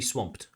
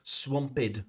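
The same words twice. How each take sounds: First: The ending adds no extra syllable. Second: The ending is said as an extra syllable. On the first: The speaker calls it right. "It should be swamped" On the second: The speaker calls it wrong. "They tend to overpronounce them as id"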